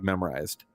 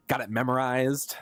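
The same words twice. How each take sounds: First: Said in the usual way. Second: Kingdom Hearts quote. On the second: Retold or imitated. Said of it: "Kingdom Hearts two, anyone?".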